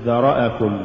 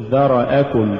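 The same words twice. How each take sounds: First: ذرأكم with short vowels cut; snatched vowels. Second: ذرأكم with each short vowel complete; full vowels. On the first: Teacher shows crooked reading, ذرأكم uneven. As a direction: slur the syllables of ذرأكم. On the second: Teacher models correct recitation, ذرأكم evenly voweled. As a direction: give each syllable of ذرأكم equal room. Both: Shown as a demonstration. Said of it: "ولا تقل".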